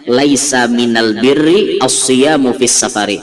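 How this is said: The article is said with an l sound.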